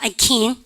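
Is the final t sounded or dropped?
dropped. The final t sound is dropped. "미국 애들은 ... 트 발음 하지잖아요"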